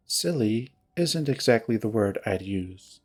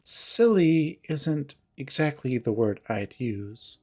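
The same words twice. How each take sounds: First: Low, cool disapproval. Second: Slow, measured retort, leaning on SILLY; cool disapproval. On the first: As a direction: lower retort, leaning on "isn't". Jenna coolly corrects Heather, second take. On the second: Jenna coolly corrects Heather, first take. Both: Acted.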